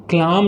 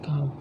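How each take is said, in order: First: "क्लाम" with the L sounded; mispronounced calm. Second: "काम" with a silent L; correct pronunciation. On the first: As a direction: say "क्लाम", wrongly voicing the L. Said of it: "इसको क्लाम नहीं पढ़ते हम". ("क्लाम" में ल बोलकर गलत उच्चारण) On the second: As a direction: say "काम", long aa and no L. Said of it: "इसको काम पढ़ जाता है". ("काम", बिना ल के सही उच्चारण) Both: Shown as a demonstration.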